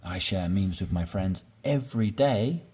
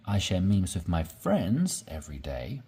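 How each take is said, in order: First: "every day" stressed, rising at the end; emphasis on every day. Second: "friends" stressed with a rising lift; emphasis on friends. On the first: Teacher showing learners how to stress "every day". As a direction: push the weight onto "every day". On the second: Teacher showing learners how to stress "friends". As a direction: lean on the word "friends". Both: Shown as a demonstration. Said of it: "to emphasize something".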